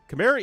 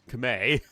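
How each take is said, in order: First: It is said with an English pronunciation. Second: It is said with the native Khmer pronunciation. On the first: "the grammatically correct English language pronunciation" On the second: "the actual Khmer word"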